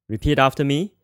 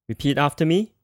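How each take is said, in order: The two takes are said the same way.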